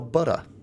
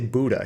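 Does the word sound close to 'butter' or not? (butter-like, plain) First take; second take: butter-like; plain. First: The word sounds almost like butter. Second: The middle has a plain d sound. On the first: This copies how someone else said it. "Like like butter, almost?" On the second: This is the speaker's own usual way. "I would say Buddha"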